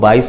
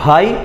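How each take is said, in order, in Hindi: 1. पहले व्यंजन में साँस का झोंका नहीं निकलता। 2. पहले व्यंजन में तेज़ साँस का झोंका निकलता है। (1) "अल्प प्राण जैसा सुनाई देता है" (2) "महाप्राण के शब्दों"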